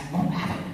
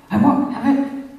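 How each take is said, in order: First: Breathy, voiceless I won't have it, under the breath; hushed refusal. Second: I won't have it pushed higher and louder, the word have hit hard; raised refusal. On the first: Angry man rejecting her love, whispered refusal. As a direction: hiss the refusal, barely voiced. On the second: Angry man rejecting her love, loud defiant refusal. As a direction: bark the refusal back at her. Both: Retold or imitated.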